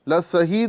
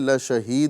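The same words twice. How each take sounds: First: The consonant after 'la' is a plain s. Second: The consonant after 'la' is an sh. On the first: The speaker calls it wrong. "लशहीद नहीं बोलना है" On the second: The speaker calls it right. "बल्कि लशहीद बोलना है"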